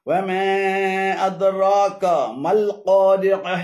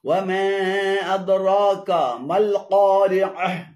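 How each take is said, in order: Both takes have the same delivery.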